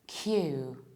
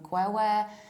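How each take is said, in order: First: It is said exactly like the letter Q. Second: It is said with extra vowel sounds, not like Q. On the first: The speaker calls it right. "this word is pronounced as simple as that" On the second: The speaker calls it wrong. "I've heard dozens of different versions of pronunciation of this word"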